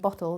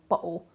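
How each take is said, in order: First: The middle consonant is a clear t sound. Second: The middle consonant is a strong glottal stop. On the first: "rather than bottle" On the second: "they're doing a really strong glottal stop and they're going bottle"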